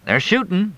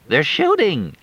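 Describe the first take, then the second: First: "They're shooting," said coolly, unbothered; dry calm reply. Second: High, frightened "They're shooting!"; alarmed cry. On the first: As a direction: shrug it off. Fletch answers calmly. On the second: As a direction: shout the warning in panic. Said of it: "Crystal screamed". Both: Acted.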